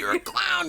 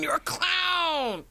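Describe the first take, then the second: First: High, teasing clown call; sing-song teasing; silly clown. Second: High, slow whisper; breathy whisper, drawn out; whispered clown tease. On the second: Teasing co-host as clown. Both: Acted.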